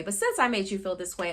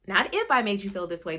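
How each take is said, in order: First: The word "since" clearly stressed to show the right reading. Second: The word "if" stressed to show the wrong reading. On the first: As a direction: hit "since" as the correct version. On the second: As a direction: lean on "if" as the version to reject. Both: Shown as a demonstration.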